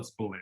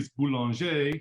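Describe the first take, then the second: First: The name is said in an American way. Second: The name is said in a French way.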